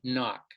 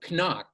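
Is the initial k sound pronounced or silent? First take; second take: silent; pronounced. First: The initial k sound is silent. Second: The initial k sound is pronounced. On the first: The speaker calls it right. "rather than saying knock" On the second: The speaker calls it wrong. "some learners of English will say"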